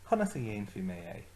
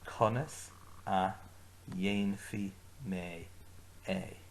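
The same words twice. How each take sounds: First: Conas a dhéanfaí mé é run together fast; quick joined phrase. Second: Conas a, dhéanfaí mé, é said slowly in chunks; slow broken-up phrase. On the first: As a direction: say Conas a dhéanfaí mé é at full speed in one go. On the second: Teacher breaks conas a dhéanfaí mé é into slow chunks. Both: Shown as a demonstration. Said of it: "Agus arís".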